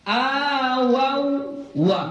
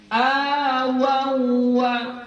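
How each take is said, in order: The two takes are said the same way.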